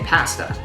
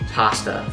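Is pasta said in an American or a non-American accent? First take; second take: non-American; American. First: The word is said in a non-American native accent. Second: The word is said in an American accent. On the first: "If I were to say it in my native tongue" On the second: "I said pasta because I am a trained actor to speak in an American accent"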